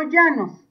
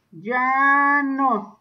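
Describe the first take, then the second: First: Said in the usual way. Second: "llanos" slowly, in two long syllables; drawn-out repeat. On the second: Shown as a demonstration. Teacher dictating a term to pupils, "llanos" drawn out. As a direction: stretch the first syllable of "llanos".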